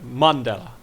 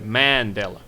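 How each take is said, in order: First: The first syllable sounds like 'Mon' in Monday. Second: The first syllable does not sound like 'Mon'. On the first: This is how locals say the name. The speaker calls it right. "So it's like Monday" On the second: This is how an outsider says the name. The speaker calls it wrong. "So you put a lot of emphasis on that first vowel"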